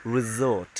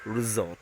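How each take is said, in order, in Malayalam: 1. മധ്യത്തിലുള്ള വ്യഞ്ജനം മൂളുന്ന z ശബ്ദമാണ്. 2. മധ്യത്തിലുള്ള വ്യഞ്ജനം മൂളുന്ന z ശബ്ദമാണ്.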